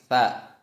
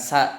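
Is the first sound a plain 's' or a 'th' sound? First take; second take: th sound; plain s. First: It begins with the tongue against the teeth. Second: It begins with a plain 's' sound. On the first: The speaker calls it right. "tapi tha" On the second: The speaker calls it wrong. "ini bukan sa"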